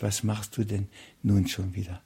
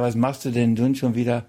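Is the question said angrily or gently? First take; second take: gently; angrily. First: It is said in a gentle, loving tone. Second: It is said in a harsh, thundering scolding tone. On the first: This is a loving, patient correction. The speaker calls it right. "sondern der sagt, mein Kind" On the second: This is an angry rebuke. The speaker calls it wrong. "Der sagt nicht so im Donnerwetter"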